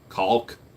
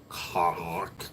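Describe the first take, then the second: First: The word is said clearly as caulk. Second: The word is said so it sounds like cock. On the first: "cock with an L" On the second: "If you say it wrong just right, it sounds worse"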